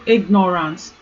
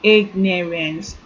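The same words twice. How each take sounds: First: The last syllable has an 'ar' vowel. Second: The last syllable has an 'a' vowel. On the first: The speaker calls it wrong. "there's nothing like" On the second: The speaker calls it right. "the letter A is not R. Rather it changes to A"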